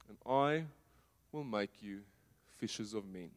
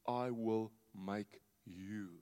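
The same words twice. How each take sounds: First: Said in the usual way. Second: "I will make you" very slow, each word weighed, "I" leaned on; slow emphatic. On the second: Shown as a demonstration. Preacher stresses Jesus's promise to disciples, slow and weighty. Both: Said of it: "he speaks into their identity".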